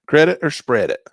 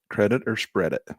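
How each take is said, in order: First: Higher, louder insistent repeat; pressing himself for the answer, loud. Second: Said in the usual way. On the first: Real, not acted. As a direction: ask it again, much more forcefully.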